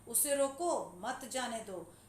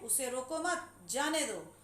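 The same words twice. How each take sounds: First: The pause comes after रोको. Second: The pause comes after मत.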